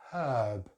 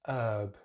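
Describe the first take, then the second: First: The word starts with an audible h sound. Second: The word starts directly with the vowel. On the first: "Sometimes we don't pronounce a letter H in British English... But usually we don't" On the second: "They just don't pronounce the H here"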